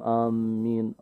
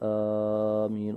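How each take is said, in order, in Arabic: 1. صوت الميم مُشدَّد ومُمسَك. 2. الحرف الأول يُمدّ مدًّا طويلًا. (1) "يضعف أو يشدد على الميم" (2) "البعض يمد في أول الهمز"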